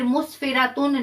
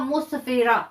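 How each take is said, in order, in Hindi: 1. शब्द का अंत पूरे -tun से होता है। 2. शब्द खामोश h की आवाज़ पर खत्म होता है। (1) "मुस्फिरातुन नहीं पढ़ा जाएगा" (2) "इसको हमने हा साकिना में बदल देना है"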